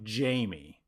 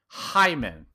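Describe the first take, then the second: First: The name begins with an English J sound. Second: The name begins with a breathy H sound. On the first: The speaker calls it wrong. "I've been saying it wrong" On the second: The speaker calls it right. "say his name right"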